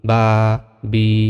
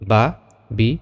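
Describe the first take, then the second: First: The vowels are drawn out long. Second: The vowels are short and quick. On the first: The speaker calls it wrong. "এভাবে টেনে পড়া যাবে না" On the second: The speaker calls it right. "তাড়াতাড়ি পড়তে হবে"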